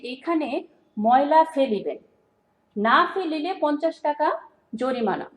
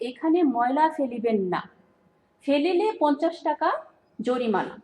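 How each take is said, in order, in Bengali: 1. বিরতিটি 'না' শব্দের ঠিক আগে আসে। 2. বিরতিটি 'না' শব্দের ঠিক পরে আসে। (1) "এখানে ময়লা ফেলতে হবে" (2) "এখানে ময়লা না ফেলার জন্য বলা হয়েছে"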